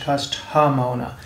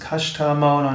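First: The first word has an h sound. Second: The first word has no h sound. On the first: The speaker calls it wrong. "nicht Kashta Mauna" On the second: The speaker calls it right. "Es wird ohne H geschrieben. Es ist Kashta Mauna"

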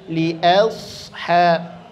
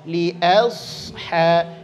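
First: The vowel after li sounds thin, like 'a'. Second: The same.

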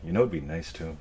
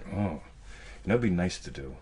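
First: It sounds eager and full of intent. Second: It sounds vague and half-hearted.

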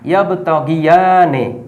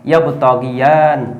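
First: The word ends with a vowel after the n. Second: The word ends on the n with no vowel. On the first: The recitation continues without stopping here. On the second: The recitation stops at this word.

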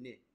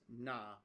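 First: The word ends with a high 'i' vowel. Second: The word ends with an open 'a' vowel. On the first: The speaker calls it right. "or even ni, ni is really common as well" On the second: The speaker calls it wrong. "the pronunciation here is a little bit weird with the mechanical audio. That's not right"

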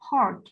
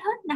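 First: It sounds like the English word heart. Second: It sounds like the Vietnamese syllable hết. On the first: The speaker calls it right. "mình đọc là heart" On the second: The speaker calls it wrong. "mình không đọc là hết hết nè"

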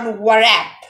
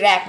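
First: The W sound is pronounced. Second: The W sound is silent. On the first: The speaker calls it wrong. "not warap. It's incorrect" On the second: The speaker calls it right. "Each first letter is silent, so it will be rap"

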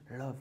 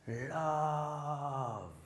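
First: The word is said short and quick. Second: The word is stretched out for a long time. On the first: "juste love" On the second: "en faisant durer plus longtemps le mot"

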